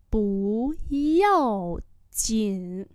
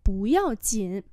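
First: Each syllable drawn out slowly; slow teaching repeat. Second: Said in the usual way. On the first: Shown as a demonstration. Teacher slowly models the phrase for students, drawn out. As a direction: spell it out slowly for learners. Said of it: "slow repeat". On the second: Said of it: "normal model".

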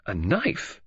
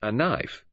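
First: Mildly surprised echo, rising on "knife"; understated, questioning surprise. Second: Said in the usual way. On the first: A narrator's reading. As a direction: query "knife" with a drawn-out lift at the end.

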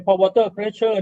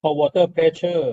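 First: Said in the usual way. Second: Slow term. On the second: Shown as a demonstration. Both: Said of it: "เราเรียกว่า".

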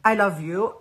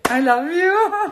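First: Said in the usual way. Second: Much higher and louder I love you, stretching "you"; thanking the designer, a loud high gushing I love you. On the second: Real, not acted. Gushing to Haytham.

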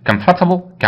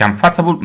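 First: Comfortable said as three syllables, COMF-ta-ble; teacher modelling comfortable; correct pronunciation. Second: Comfortable said as com-FOR-ta-ble, every syllable spelt out; slow mock-wrong com-for-ta-ble; teacher showing the mistake to avoid; wrong pronunciation. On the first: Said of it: "ما اسمهاش comfortable". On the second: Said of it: "غلط". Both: Shown as a demonstration.

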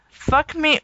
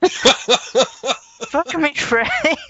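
First: Said in the usual way. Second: Mock cry. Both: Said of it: "Luke cried".

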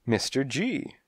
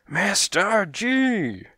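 First: Brief answer, raised at the end; prompt reply. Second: Very high, drawn-out outburst; exploding. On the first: Detective answers the cat boss, promptly. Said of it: "I said promptly". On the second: Cat boss explodes at the detective's question, furious. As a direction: blow up on the name, stretching it out. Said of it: "he exploded". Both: A narrator's reading.

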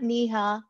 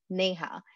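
First: "Neha" as NEE-ha; mispronounced name. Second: "Neha" as NAY-ha; own pronunciation. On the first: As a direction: say "Neha" with a long ee first. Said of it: "it always gets mispronounced". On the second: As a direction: say "Neha" with an ay first, softly. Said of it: "I call myself". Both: Shown as a demonstration.

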